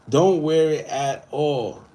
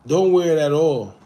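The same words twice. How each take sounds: First: "Don't wear it at all" drawn out slowly, each word weighted; slow emphatic repeat. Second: Said in the usual way. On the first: Real, not acted.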